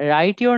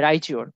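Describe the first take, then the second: First: A plain t sound comes before your. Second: The t and y merge into ch. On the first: "রাইট ইউর না হয়ে" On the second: "এর উচ্চারণটা হয়ে যাবে চ"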